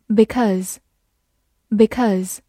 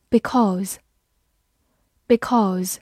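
First: "because" in its weak form, second vowel reduced. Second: Said in the usual way. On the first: Shown as a demonstration. Teacher showing learners the other reading, "because" in weak form. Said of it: "也可以弱读成". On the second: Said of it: "或者也可以弱读成".

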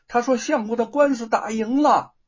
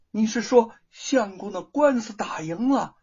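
First: Higher and louder, bursting with the good news; loud excited news. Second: A joyful question with a catch of tears in it; tearful joy. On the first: Wife shouting the lawsuit news to her mother-in-law. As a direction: call out that the case is won. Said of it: "大声的告诉婆婆". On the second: Wife asking the monkey about the lawsuit, tearfully overjoyed. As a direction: ask it almost crying with happiness. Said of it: "玉凤惊喜的说". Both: A narrator's reading.

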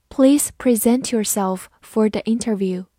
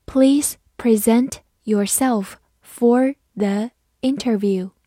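First: Said in the usual way. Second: Slow, word by word; slow, deliberate teaching pace; slow read-through. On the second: Shown as a demonstration. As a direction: read it slowly with clear gaps between words. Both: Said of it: "慢读一遍".

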